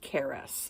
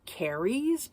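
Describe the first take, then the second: First: The name sounds like 'Caris', not 'carries'. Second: The name sounds like the word 'carries'. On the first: This is how the name is actually said. The speaker calls it right. "but it's Caris" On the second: This is how the reader first imagined the name. The speaker calls it wrong. "I'm thinking it's Carries"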